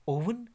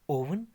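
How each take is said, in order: The two takes are said the same way.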